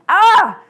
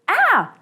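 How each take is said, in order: First: The scream is louder and more intense. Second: The scream is fairly soft and short.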